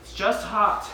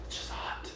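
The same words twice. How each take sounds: First: Said in the usual way. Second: Breathy whispered repeat. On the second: Acted. Tap dancer muttering about the heat, whispered. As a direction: drop to a near-silent whisper.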